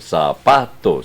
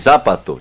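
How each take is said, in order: First: The stress falls on the middle syllable. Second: The stress falls off the middle syllable. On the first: The speaker calls it right. "sino zapato" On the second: The speaker calls it wrong. "usted no dice zapato"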